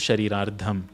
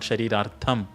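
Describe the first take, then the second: First: The consonant before the ending is a d sound. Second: The consonant before the ending is a t sound. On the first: The speaker calls it right. "it is Sharirardham. That is the right way of saying it" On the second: The speaker calls it wrong. "It is not Sharirartham"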